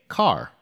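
The final R is clearly pronounced.

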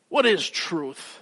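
The question sounds angry. The asker is annoyed with the accusers. "He could say it in a way that's more angry"

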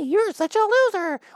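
It is said in a high-pitched voice.

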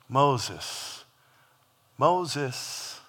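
It is said in a tender, endearing voice.

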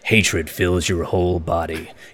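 It is read in an edgy put-on voice.

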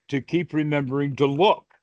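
The stress is on "look".

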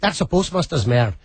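It is said in a Northern Irish accent.

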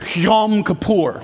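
It is said with a harsh, throaty, spitting sound. The speaker wants to sound authentically Hebrew. "it's almost like you have to spit to say it"

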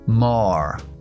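American accent with an r sound at the end. "Pronunciación estadounidense. Redondeo menos y pronuncio la R"

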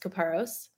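It ends with an s sound, American style.

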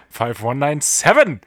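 The voice rises at the end, announcer style.

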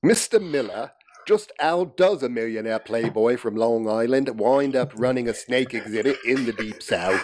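It is read in a pronounced English accent.

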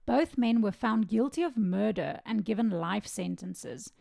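It is said in a grave, serious tone.

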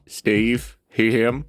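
It is said in a high voice.

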